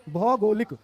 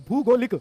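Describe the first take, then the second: First: भौगोलिक opening on "bhau"; correct pronunciation. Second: भूगोलिक opening on "bhoo"; wrong pronunciation. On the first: Teacher gives students the right word, correctly pronounced. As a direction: open भौगोलिक with an au sound. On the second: Teacher reads the misspelling to children, mispronounced. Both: Shown as a demonstration. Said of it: "तो हम बोलेंगे भौगोलिक".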